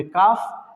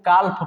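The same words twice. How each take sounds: First: काफ with no L before F; silent L. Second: काल्फ with L heard before F; wrong sounded L. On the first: Teacher gives the correct reading, काफ with silent L. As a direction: say काफ leaving L out. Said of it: "इसलिए इसको पढ़ेंगे". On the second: Teacher quoting a common mistake, काल्फ with L. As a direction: pronounce the L in काल्फ. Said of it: "जो कि गलत sound है". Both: Shown as a demonstration.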